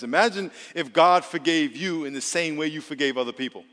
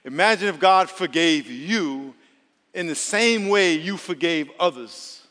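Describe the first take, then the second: First: It is said at normal speed. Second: It is said slowly, with a pause.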